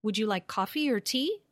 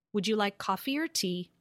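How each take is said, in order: First: "Would you like coffee or tea?" lifting up on "coffee" and at the end; rising tune. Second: "Would you like coffee or tea?" falling on "tea" to close the choice; falling tune. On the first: Teacher asking a colleague to hear the open question rise. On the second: Teacher asking a colleague to hear the closed question fall. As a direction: settle down hard on "tea?". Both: Shown as a demonstration. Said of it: "Can you hear that difference?".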